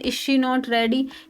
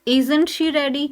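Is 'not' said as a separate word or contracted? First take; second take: separate; contracted. First: 'Not' is said as a separate full word. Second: 'Not' is contracted onto 'is' as one word. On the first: The speaker calls it wrong. "हम अब ऐसे नहीं बोलेंगे जैसे मैंने बोला ... थोड़ा सा ये टाइम टेकिंग हो रहा है" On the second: The speaker calls it right. "तो ये थोड़ा फास्ट हो जाता है"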